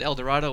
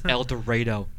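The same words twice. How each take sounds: First: It is said the common, non-local way. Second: It is said the local Kansas way. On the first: The speaker calls it wrong. "I said El Dorado once to a Kansanite, and they kind of gave me that look" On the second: The speaker calls it right. "It's El Dorado"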